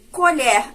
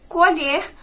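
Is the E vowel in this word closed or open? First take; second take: open; closed. First: The E vowel is pronounced open. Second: The E vowel is pronounced closed. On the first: It names an object, a spoon. "a gente fala com o E mais aberto" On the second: It is a verb, to pick or harvest. "a gente fala com esse E fechado"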